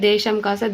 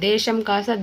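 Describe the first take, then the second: No difference in how they are said.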